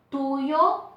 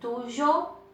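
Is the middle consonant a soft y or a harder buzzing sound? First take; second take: soft y; harder buzzing. First: The middle consonant is a soft y sound. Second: The middle consonant is a harder buzzing sound.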